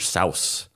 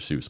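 First: Seuss is said the original, less common way. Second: Seuss is said the common, popular way. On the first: This is how the name was meant to sound. "the actual way you're supposed to say it is" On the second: This is how most people say the name. "So it just became"

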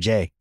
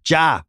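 First: The name is said with an 'ay' vowel. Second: The name is said with an 'ah' vowel. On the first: The speaker calls it wrong. "I always call him [name]" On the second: The speaker calls it right. "I know it's Ja Morant. It's like Ja Rule"

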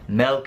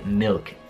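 First: The vowel is an e sound. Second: The vowel is a short i sound. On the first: The speaker calls it wrong. "Milk non esiste" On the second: The speaker calls it right. "La propria giusta pronuncia è milk"

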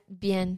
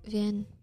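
First: The word begins with a b sound. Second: The word begins with a v sound. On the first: The speaker calls it right. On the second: The speaker calls it wrong. "Did you say bien with a V?"

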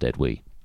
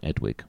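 First: The final G sound is silent. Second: The final G sound is clearly pronounced. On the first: The speaker calls it right. "it should be pronounced Edwy" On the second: The speaker calls it wrong. "I quite like Edwig"

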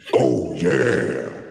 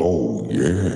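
First: It is said like the Kool-Aid Man. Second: It is said in a normal voice.

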